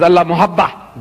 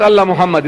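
First: "Allah Muhabba" with the corrected ending, Muhabba; correcting to Muhabba. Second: "Allah Muhammad" read as expected, ending in Muhammad. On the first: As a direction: reveal "Allah Muhabba" as the true reading. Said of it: "It's not Allah Muhammad". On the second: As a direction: say "Allah Muhammad" as everyone reads it. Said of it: "it's Allah Muhabba". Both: Shown as a demonstration.

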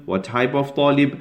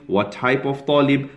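The two takes are said the same way.

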